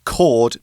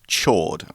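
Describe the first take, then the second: First: The word begins with a hard K sound. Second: The word begins with a soft CH sound. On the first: The speaker calls it right. "you still pronounce it chord" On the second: The speaker calls it wrong. "not chord"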